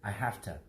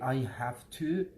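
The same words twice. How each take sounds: First: "Have to" is run together and reduced. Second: Each word of "have to" is said fully. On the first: This is how Americans say it. "but Americans say I have to" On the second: This is how non-native speakers say it. "We say I have to"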